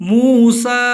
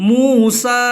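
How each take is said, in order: The two takes are said the same way.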